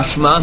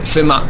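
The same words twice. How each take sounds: First: Shma with no vowel after sh. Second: Shema with a short e after sh. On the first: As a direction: clip it to shma. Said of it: "Pas shma". (shma sans voyelle) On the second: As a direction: sound the e in shema. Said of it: "mais shema". (shema avec le e) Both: Shown as a demonstration.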